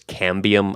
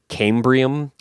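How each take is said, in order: First: No R sound follows the first syllable. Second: An R sound follows the first syllable. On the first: The speaker calls it right. "the actual word is cambium" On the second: The speaker calls it wrong. "I kept calling it cambrium"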